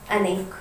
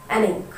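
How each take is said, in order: Both takes have the same delivery.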